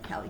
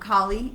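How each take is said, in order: First: The name is said like Californian 'Cali'. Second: The name is said the Indian way. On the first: The speaker calls it wrong. "I am prone to say Cali because you know Cali girl" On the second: The speaker calls it right.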